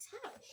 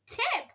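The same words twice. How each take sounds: First: "tap" said with a short A, high and soft; short-vowel tap. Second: "tap" said as "tape" with a long A, high and loud; magic E tape. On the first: Teacher reading the word for her child. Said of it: "They can be able to read this word". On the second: Teacher showing her child the magic E word. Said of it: "with the magic E, we read it". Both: Shown as a demonstration.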